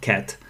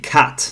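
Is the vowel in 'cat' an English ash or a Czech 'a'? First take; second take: Czech 'a'; English ash. First: The vowel is a plain open Czech 'a'. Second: The vowel is the English ash sound. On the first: The speaker calls it wrong. "not cat" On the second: The speaker calls it right. "the correct pronunciation should be cat"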